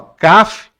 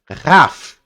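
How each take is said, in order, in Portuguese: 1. Começa com um k duro, sem sopro. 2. Começa com um kh soprado, rascante. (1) "aqui é o Kaf" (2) "sem o ponto, ele é o Rá"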